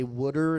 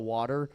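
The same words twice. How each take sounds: First: "wooder" with the vowel of "wood"; local Baltimore pronunciation. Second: Said in the usual way. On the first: Shown as a demonstration. Comic showing the hill dialect, "wooder" with an oo vowel. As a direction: say "wooder", first syllable like wood. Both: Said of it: "they say wooder instead of water".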